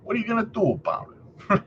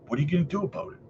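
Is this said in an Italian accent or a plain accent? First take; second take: Italian; plain. First: It is said in a put-on Italian accent. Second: It is said in the speaker's normal accent.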